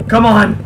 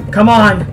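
No difference in how they are said.

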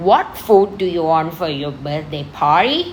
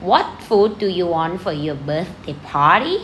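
First: Lightly voiced mother, slow and a little lower; a hint of a mum asking her child; mother's voice. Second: Very slow question with a lift at the end; slow review reading. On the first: Teacher playing the mother in the dialogue, lightly voiced mum. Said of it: "เป็นคุณแม่ก่อน". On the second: Shown as a demonstration. Teacher reviewing the dialogue for students, slow reading. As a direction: read it slowly so they can follow. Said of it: "คุณครูอ่านทบทวนให้ฟังนะ".

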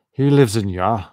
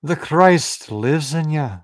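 First: Loud attempt at a Scottish accent gone astray; botched Scottish accent. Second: Higher, louder Scottish lilt; Scottish accent. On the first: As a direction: try Scottish and land in the wrong region. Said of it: "Gotta get the accent in there". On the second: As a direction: proclaim it with a stronger Scottish accent. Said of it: "more Scottish". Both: Shown as a demonstration.

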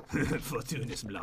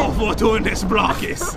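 First: Very low, hushed mock incantation; quiet, deep wizard's spell. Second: Slow, drawn-out mock incantation; stretched-out wizard's cry; cool spell-casting. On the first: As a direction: murmur the spell softly, deep down in the voice. Repeats spell until told to stop. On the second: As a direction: cry out the spell slowly, trying to sound cool. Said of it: "I sounded cooler that time".

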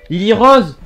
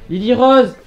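The two takes are said the same way.

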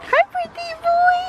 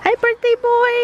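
First: Higher sing-song greeting. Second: Said in the usual way. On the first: Real, not acted. Repeated greeting, pitched up.

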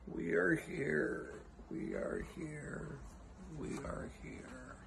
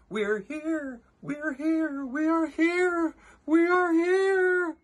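First: Very soft, slow, drawn-out call; a tiny distant cry, fading almost to breath; faint cry. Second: Very high, swelling tiny-crowd cry; crying out in fear. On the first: Pretend. Faint echo of crowd's cry. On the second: A narrator's reading. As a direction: stretch it into an ever louder high call. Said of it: "They cried out in fear".

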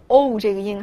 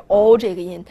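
First: "o" as a gliding English-style "ou"; 错误对照音. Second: "o" as a pure, rounded single vowel; 纯元音. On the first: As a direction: let the "o" slide toward oo, as the wrong option. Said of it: "发的是o这个音还是o". (把"o"读成带滑音的"ou") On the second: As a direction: hold "o" round with no glide toward oo. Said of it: "是不是发o". (把"o"读成不滑动的圆唇单元音) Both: Shown as a demonstration.

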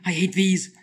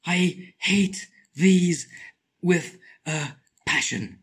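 First: Said in the usual way. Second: Very slow, stretched I hate these; drawn out. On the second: Shown as a demonstration. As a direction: drag every word out.

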